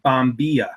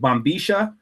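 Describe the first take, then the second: First: It is said with the general Spanish pronunciation. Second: It is said with the River Plate regional pronunciation. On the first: The way it is said outside that region. "outside of that region, they pronounce it Bombilla" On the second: The speaker's own regional way of saying it. "so I pronounce it Bambisha"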